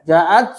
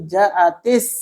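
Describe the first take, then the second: First: The t ends with no vowel after it. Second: The t carries an i vowel and links on. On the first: The speaker calls it wrong. "Kalau misalkan sukun, maka ja'at. Hmm, nggak bisa dibaca" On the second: The speaker calls it right. "sukun yang pertama dibaca kasrah"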